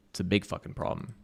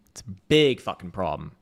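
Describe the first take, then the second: First: Said in the usual way. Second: "big" hit harder on the repeat, louder. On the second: Real, not acted. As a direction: say "big fucking problem" again, louder.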